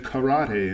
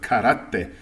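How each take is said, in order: First: The consonants are soft and not hardened. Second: The consonants are hard and crisp. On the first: The speaker calls it wrong. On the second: The speaker calls it right.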